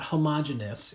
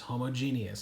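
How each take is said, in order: First: The e sound before the ending is dropped. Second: The e sound before the ending is sounded. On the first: The speaker calls it wrong. "It's not homogeneous" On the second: The speaker calls it right. "There are two e's in this word"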